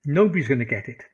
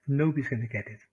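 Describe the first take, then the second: First: Louder, punching nobody's; emphatic. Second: Said in the usual way. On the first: Shown as a demonstration. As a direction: push Nobody's out hard and loud. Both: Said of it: "repeats the line twice".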